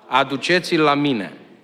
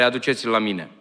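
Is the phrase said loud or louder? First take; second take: louder; loud. First: The phrase is said noticeably louder than before. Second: The phrase is said aloud at ordinary loudness. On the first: "Mai tare, vă rog" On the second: "Haideți să spunem cu voce tare"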